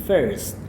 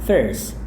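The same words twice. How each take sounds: The two takes are said the same way.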